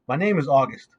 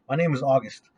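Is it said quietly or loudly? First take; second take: loudly; quietly. First: It is said loudly and clearly. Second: It is mumbled quietly.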